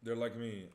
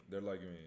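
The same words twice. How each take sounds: First: High and loud, LIKE punched; loud emphatic. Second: Said in the usual way. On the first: Shown as a demonstration. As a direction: hit like hard and high. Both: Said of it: "repeats the line".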